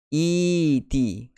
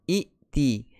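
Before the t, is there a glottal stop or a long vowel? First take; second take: long vowel; glottal stop. First: The first vowel is lengthened with no stop. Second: A glottal stop closes the first syllable. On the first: The speaker calls it right. "tukarkan kepada huruf mat" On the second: The speaker calls it wrong. "tidak boleh berkumpul dua hamzah, yang keduanya berbaris sukun"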